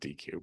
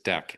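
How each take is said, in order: First: It is said as two letters, 'D' and 'Q'. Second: It is said as one syllable, like 'deck'. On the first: The speaker calls it wrong. "D Q is wrong" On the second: The speaker calls it right. "the pronunciation is deck"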